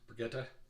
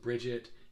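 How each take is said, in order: First: The name is said like the French name Brigitte. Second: The name is said like the English name Bridget. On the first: The speaker calls it right. "it was Brigitte" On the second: The speaker calls it wrong. "it wasn't Bridget"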